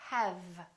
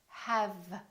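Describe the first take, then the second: No difference in how they are said.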